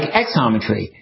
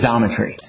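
First: The name does not begin with a z sound. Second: The name begins with a z sound. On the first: The speaker calls it wrong. "we had been saying it like Xometry" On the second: The speaker calls it right. "he was pronouncing it like a Z"

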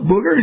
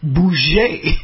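First: The name is read as the English word booger. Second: The name is given a French pronunciation. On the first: The speaker calls it wrong. "what's up" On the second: The speaker calls it right. "it's Bouger"

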